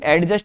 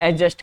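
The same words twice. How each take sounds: First: A clear 'd' sound comes before the 'j'. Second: No 'd' sound comes before the 'j'. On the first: The speaker calls it wrong. "एडजस्ट नहीं" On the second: The speaker calls it right. "एडजस्ट कर लीजिए"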